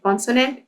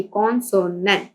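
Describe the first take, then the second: First: Said in the usual way. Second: "consonant" in three distinct beats; syllable by syllable. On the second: Shown as a demonstration. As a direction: separate con, so, nant in "consonant". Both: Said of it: "ये इसके three syllable आ रहे हैं".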